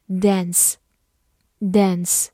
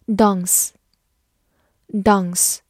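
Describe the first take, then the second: First: "dance" the American way, with a front æ vowel; American pronunciation. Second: Said in the usual way. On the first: Shown as a demonstration. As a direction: say "dance" in American English, dæns, not dahns. (dance美式发音，读作dæns) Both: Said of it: "美式发音读作".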